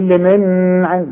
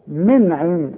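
First: The n is held with a nasal hum. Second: The n is plain, with no nasal hum. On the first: The speaker calls it wrong. "مش تقول من عين" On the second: The speaker calls it right. "مش هغن العين النون دي"

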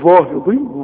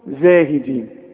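First: The first consonant is a heavy, emphatic z. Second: The first consonant is a light, plain z. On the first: The speaker calls it wrong. "عمرك ما هتقول لي كده ابدا" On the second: The speaker calls it right. "بتقولها سليمة صحيحة... الحروف المرققة"

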